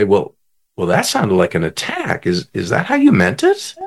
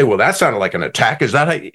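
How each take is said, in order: First: Low, measured delivery lifting into a gentle question; calm, non-defensive check-in. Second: Quicker, touchy demo of taking offence; mildly hammed-up defensive comeback; mock defensive. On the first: Retold or imitated. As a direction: say it calmly, without getting defensive. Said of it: "he'll just very calmly say". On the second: Shown as a demonstration. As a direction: act out a mildly defensive retort. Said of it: "And notice the tone. He didn't say".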